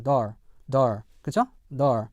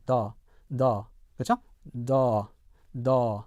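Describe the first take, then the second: First: "door" with the R sounded; American "door", r-coloured ending. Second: "the" said as "door" without R, "daw"; British R-less "door", written "the". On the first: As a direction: say "door" American-style, one vowel plus R. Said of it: "일반 미국 영어에서는요". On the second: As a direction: say "door" British-style, long vowel, no R. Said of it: "R 사운드를 하지 않고". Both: Shown as a demonstration.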